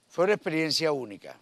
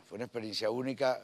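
First: Loud, fast, high burst of enthusiasm; excited. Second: Said in the usual way. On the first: Real, not acted. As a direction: exclaim it with delight. Emphatic repeat of praise.

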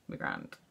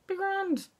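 First: Very low, soft "Be grand"; deep-voiced catchphrase. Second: High-pitched catchphrase. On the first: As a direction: drop GRAND right down to a quiet bass. Same catchphrase, dropped very low. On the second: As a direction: sing out GRAND in a very high squeaky pitch. Playing with the repeated catchphrase. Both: Shown as a demonstration.

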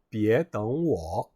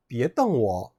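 First: 떵워 drawn out, 떵 rising into a dipping 워; tone contrast, wait. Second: 떵워 in quicker form, 떵 not rising from low; tone contrast, glare. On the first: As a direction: say 떵워 as Chinese "děng wǒ", rising then low. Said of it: "나를 기다리지 마세요". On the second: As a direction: say 떵워 as Chinese "dèng wǒ", glare at me. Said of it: "나를 노려보지 마세요"라고". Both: Shown as a demonstration.

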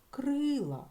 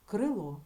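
First: "крила" slowed, leaning hard on a held И; stress on И. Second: Said in the usual way. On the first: Shown as a demonstration. Teacher gives pupils the check word, drawn-out stressed И in "крила". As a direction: stretch the И in "крила" long. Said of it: "на нього падає наголос". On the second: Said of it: "Наголос у нас падає на звук о".

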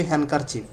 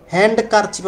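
First: হ্যান্ডকারচিফ with silent d, hankerchief; the correct way, no d sound; right way. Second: হ্যান্ডকারচিফ with the d sounded, hand-d-kerchief; the wrong spelling-pronunciation with d. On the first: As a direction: say হ্যান্ডকারচিফ dropping the d. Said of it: "আমরা বলি". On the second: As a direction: say হ্যান্ডকারচিফ pronouncing the d clearly. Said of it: "আমরা বলি না". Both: Shown as a demonstration.

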